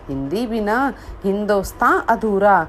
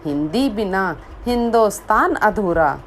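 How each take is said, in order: Both takes have the same delivery.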